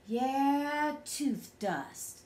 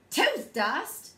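First: A hint of a pondering father, trailing down; lightly voiced musing dad. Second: Incredulous half-shouted echo; kinda shouted. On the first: Dada mulls over tooth dust, musing. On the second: Child can't believe Dada's tooth dust idea, kinda shouted. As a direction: throw it back as a startled question. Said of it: "I kinda shouted". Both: A narrator's reading.

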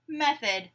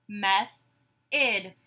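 First: Said in the usual way. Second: "Method" split slowly in two; syllable by syllable. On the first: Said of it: "You say the whole word". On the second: Shown as a demonstration. Teacher gives syllables to blend, "Method" broken apart. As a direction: say "Method" as meth, pause, od. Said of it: "I will say syllables in a word".

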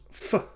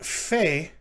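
First: F with a short schwa, "fuh"; reduced vowel. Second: Fe with a full "ay", like "fay"; full vowel. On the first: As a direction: say f as a brief "fuh". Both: Shown as a demonstration. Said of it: "the fe becomes f".

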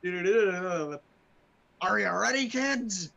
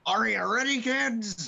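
First: Very slow, loud captain call. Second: High, loud sea captain shout; cartoon captain call. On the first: Pretend. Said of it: "I just read that wrong". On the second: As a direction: bellow like a pirate captain. SpongeBob intro call.

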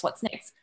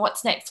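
First: Whispered. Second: Said in the usual way. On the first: Retold or imitated. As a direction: whisper the repeat under your breath. Repeated thought, second whispered.

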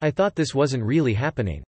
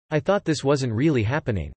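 The two takes are said the same way.

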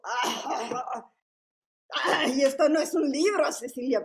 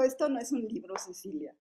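First: Loud scoffing exclamation; old print teacher dismissing the book loudly. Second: Mocking smoker's voice. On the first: Retold or imitated. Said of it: "tenía la voz así muy". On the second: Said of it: "se rió y se burló y dijo".

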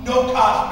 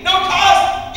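First: Said in the usual way. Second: Mock disbelief. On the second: Real, not acted. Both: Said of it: "at no cost".

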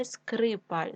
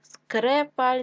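First: Said in the usual way. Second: Скрепаль with е instead of и; wrong variant Скрепаль, first vowel е; е in first syllable. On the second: Shown as a demonstration. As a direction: say Скрепаль with open e after Скр.

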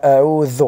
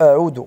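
First: أعوذ with the ذ sound; أعوذ with a voiced th at the end; correct pronunciation. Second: أعوذ with a d sound; أعوذ said with a plain d; wrong pronunciation. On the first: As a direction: say أعوذ as aʕuð, with th. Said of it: "ولم أسمع". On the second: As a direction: say أعوذ as aʕud, with d. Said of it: "سمعت ... ولم أسمع". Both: Shown as a demonstration.

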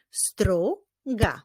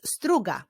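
First: STRUGA split into STRU, pause, GA; measured STRU... GA; syllable by syllable. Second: Said in the usual way. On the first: Shown as a demonstration. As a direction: clap out "struga" in two beats. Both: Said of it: "Wyklaszczmy ich sylaby".

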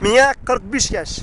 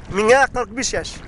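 The two takes are said the same way.

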